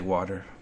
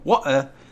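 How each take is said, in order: First: It is said in a plain American accent. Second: It is said in a put-on British accent.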